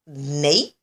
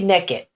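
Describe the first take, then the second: First: The first syllable sounds like 'nake'. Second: The first syllable sounds like 'neck'. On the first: The speaker calls it right. "I guess that's how you're supposed to say it" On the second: The speaker calls it wrong. "people says it sounds like neck and head"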